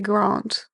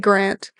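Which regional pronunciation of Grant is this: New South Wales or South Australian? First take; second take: South Australian; New South Wales. First: It is said the posher South Australian way. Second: It is said the New South Wales way. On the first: "People from South Australia would say Grant. Apparently they're posh" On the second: "we're from New South Wales, so we say Grant"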